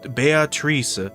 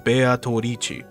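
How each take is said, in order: First: The name is said the plain English way. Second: The name is said with extra Japanese-style vowels. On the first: "it could just be Beat Beatrice" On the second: "specifically how they wrote it is Beatorici"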